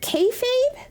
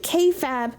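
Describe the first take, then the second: First: The second part rhymes with 'babe'. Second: The second part rhymes with 'fab'. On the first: "but is it K-Fabe?" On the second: "I've been saying K-Fab"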